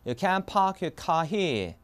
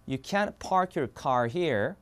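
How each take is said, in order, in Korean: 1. R 소리가 빠져요. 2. R 소리가 나요. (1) "R 발음 다 빠지는 거야" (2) "그럼 미국 영어로 이렇게 됩니다"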